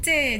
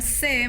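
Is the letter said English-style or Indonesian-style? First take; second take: Indonesian-style; English-style. First: The letter is said the Indonesian way, like 'che'. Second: The letter is said the English way, like 'see'. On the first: The speaker calls it right. "melainkan C" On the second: The speaker calls it wrong. "bukan C"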